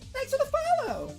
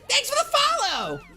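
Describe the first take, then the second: First: It attempts the game's high announcer voice. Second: It is said in an exaggerated, annoying voice.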